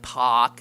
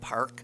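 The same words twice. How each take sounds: First: The R is dropped, in a Boston accent. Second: The R is clearly pronounced, without a Boston accent.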